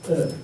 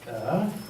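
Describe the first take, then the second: First: The pitch falls sharply from high to low. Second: The pitch dips low and then rises. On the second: "the kind of circumflex"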